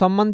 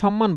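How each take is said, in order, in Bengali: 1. শব্দটি s ধ্বনি দিয়ে শুরু হয়। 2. শব্দটি sh ধ্বনি দিয়ে শুরু হয়। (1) "সম্মান যদি বলতেন তাহলে আপনি ব্যবহার করবেন কার উচ্চারণে? দন্তস্ব।" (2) "যেটা এস এইচ এর মতো উচ্চারণ হচ্ছে"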